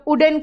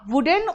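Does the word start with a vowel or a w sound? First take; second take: vowel; w sound. First: The word begins directly with a vowel sound. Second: The word begins with a clear w sound. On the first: The speaker calls it wrong. "कुछ लोग उडन कहते हैं" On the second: The speaker calls it right. "उसको आप वुडन और वुलन कहोगे"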